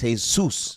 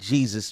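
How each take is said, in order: First: The name is said the Spanish way. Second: The name is said the English way. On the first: The speaker calls it right. "It's Jesus" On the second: The speaker calls it wrong. "It's not Jesus, man"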